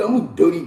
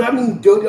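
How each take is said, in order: First: Said in the usual way. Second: Dirty hit higher and louder, with real weight; stress on dirty. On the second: Real, not acted. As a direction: lean into the word dirty. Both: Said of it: "Now, I'm, I'm".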